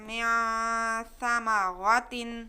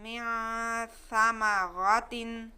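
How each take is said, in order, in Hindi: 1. यह शब्द 'tin' की आवाज़ पर ख़त्म होता है। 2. यह शब्द 'tin' की आवाज़ पर ख़त्म होता है।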